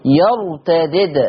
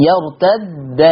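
First: يرتدد with two separate dals, slowly; first dal with i, second silent in يرتدد; Warsh reading. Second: يرتد with one doubled dal, open a-vowel; Hafs reading. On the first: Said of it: "الدال الأولى عنده هتبقى مكسورة". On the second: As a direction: hold the shadda in يرتد and end on -a. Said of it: "حفص قرأ بدال مشددة مفتوحة". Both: Shown as a demonstration.

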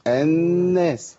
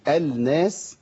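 First: الناس as an-naas, long held higher nun; lam merged into nun. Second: الناس said as al-naas, lam sounded; unmerged article. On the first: Host shows the merging rule, الناس with long doubled nun. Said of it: "الناس تبقى إيه؟". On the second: Host explains the article rule, الناس first with lam sounded. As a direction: pull out the l in الناس before the n. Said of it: "إلا في ال". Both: Shown as a demonstration.

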